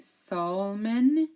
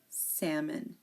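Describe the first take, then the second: First: The L sound is pronounced in the word. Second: The L sound is silent in the word. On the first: The speaker calls it wrong. "we do not say salmon" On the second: The speaker calls it right. "Pretend the L is not there"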